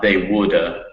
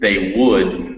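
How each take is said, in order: First: An extra vowel follows the final consonant. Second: The phrase ends cleanly on the final consonant. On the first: The speaker calls it wrong. "not they woulda" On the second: The speaker calls it right. "it's they would"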